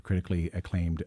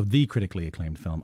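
First: Said in the usual way. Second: "the" stressed as the one and only. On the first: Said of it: "the, the critically acclaimed film". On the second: Real, not acted. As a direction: lean on "the" before critically acclaimed. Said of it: "uh, well".

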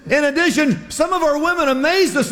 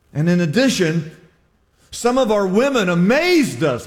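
First: "addition" and "amazed" hit high and strong; emphatic reread. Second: Said in the usual way. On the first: Shown as a demonstration. Preacher rereading the verse, "amazed" stressed high. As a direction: lean hard on "amazed". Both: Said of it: "I emphasize that".

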